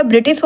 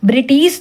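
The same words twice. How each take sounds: First: ब्रिटिश with short i vowels; correct ब्रिटिश. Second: ब्रिटिश with a long second vowel, "briteesh"; wrong ब्रिटिश. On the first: Teacher gives the correct word, ब्रिटिश with short i. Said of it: "होता है". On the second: Teacher shows the misspelling, ब्रिटिश with long ee. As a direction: stretch the tee in ब्रिटिश. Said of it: "नहीं होता". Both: Shown as a demonstration.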